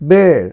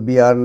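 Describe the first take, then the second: First: The vowel sounds like the one in 'bare'. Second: The vowel sounds like the one in 'beer'. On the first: The speaker calls it right. "এটা উচ্চারণ হবে বের" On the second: The speaker calls it wrong. "এটি কিন্তু বিয়ার নয়"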